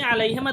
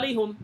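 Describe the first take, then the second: First: The vowel after the h is i. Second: The vowel after the h is u.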